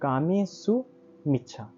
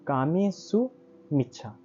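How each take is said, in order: First: The phrase is split into two separate words. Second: The same.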